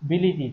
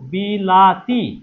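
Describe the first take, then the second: First: The second vowel is an 'i' sound. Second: The second vowel is an 'a' sound. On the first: The vowel changed to match its neighbours. "তাই পরিবর্তন হয়েছে বিলি- বিলিতি" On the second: This is the original form of the word. "ছিল কি বিলাতি"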